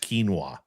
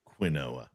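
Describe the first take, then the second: First: The word has its standard, fancy pronunciation. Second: The word has a plain, anglicized pronunciation. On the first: This is how the word is normally pronounced. "I do know it's pronounced quinoa" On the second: The food does not deserve a fancy name. "you don't deserve to have a fancy name"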